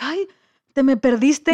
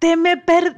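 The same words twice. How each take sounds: First: Imitating a flustered kayaker, raised and louder; mock agitation, voice lifted; agitated. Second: High, loud outburst that breaks off; retold angry yell. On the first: Kayaker finally finds her lost swimmer, imitated agitation. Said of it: "toda como que agitada". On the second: Swimmer throws the kayaker's words back at her, retold yell. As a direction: imitate yelling back in outrage. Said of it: "le grité".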